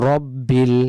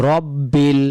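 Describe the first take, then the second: No difference in how they are said.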